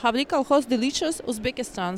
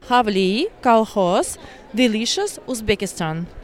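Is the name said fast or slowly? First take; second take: fast; slowly. First: The name is said at normal, fast speed. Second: The name is said much more slowly.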